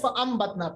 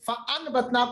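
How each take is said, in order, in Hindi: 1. b से पहले की नासिका ध्वनि m की आवाज़ है। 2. b से पहले की नासिका ध्वनि n की आवाज़ है। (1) "फअम्बतना पढ़ा" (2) "फअनबतना को"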